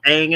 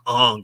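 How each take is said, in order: First: The name is said with an 'a' vowel. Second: The name is said with an 'uh' vowel. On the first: This is how the original creators say the name. The speaker calls it right. "They pronounce them Ang and Sokka" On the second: This is the film's version of the name. The speaker calls it wrong. "I'm gonna pronounce it the way they should be pronounced"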